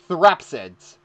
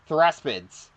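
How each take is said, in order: First: The P sound comes before the S. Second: The S sound comes before the P. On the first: The speaker calls it right. "That's better" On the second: The speaker calls it wrong. "I always pronounce these things like"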